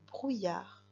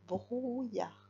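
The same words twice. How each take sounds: First: Said in the usual way. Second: "brouillard" with a stretched brou, then yar; syllable by syllable. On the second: Shown as a demonstration. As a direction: draw out the first syllable of "brouillard". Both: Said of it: "la première syllabe".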